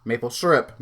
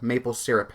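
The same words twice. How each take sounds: First: "syrup" as SUR-up; first variant. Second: "syrup" as SEER-up; second variant. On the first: Trying maple syrup aloud, SUR-up. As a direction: make "syrup" start like sir. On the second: Trying maple syrup aloud, SEER-up. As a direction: make "syrup" start like seer. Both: Shown as a demonstration. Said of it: "I forget how I say it".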